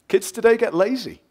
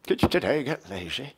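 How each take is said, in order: First: Said in the usual way. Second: Slurred, put-on grumbling voice; mocking grumbler. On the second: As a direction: mimic a grumbler, slurring the words. Mock repeat of own line.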